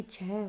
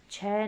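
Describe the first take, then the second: First: छः as "chheh", with final h; corrected pronunciation. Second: छः as open "chhai"; wrong pronunciation. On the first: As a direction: close छः on a breath of h. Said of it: "होगा". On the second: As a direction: say छः with an open vowel and no final h. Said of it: "नहीं". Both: Shown as a demonstration.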